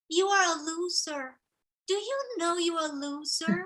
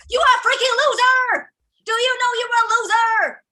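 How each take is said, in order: First: It is said in a soft, gentle voice. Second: It is said in a loud, powerful voice.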